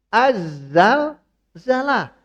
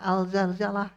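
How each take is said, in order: First: The article is pronounced 'az' before zalzalah. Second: The article is pronounced 'al' before zalzalah. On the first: The speaker calls it right. "Harusnya az-zalzalah" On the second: The speaker calls it wrong. "Mungkin dia tidak tahu tajwid ya"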